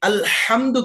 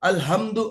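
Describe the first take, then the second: First: The h is a harsh sound from the throat. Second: The h is a plain, soft breathy sound. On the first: All praise belongs to God. The speaker calls it right. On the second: All weaknesses belong to God. The speaker calls it wrong.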